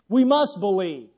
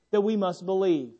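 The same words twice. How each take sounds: First: Firm stress on "must". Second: Said in the usual way. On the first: Shown as a demonstration. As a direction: lean into "must" for emphasis.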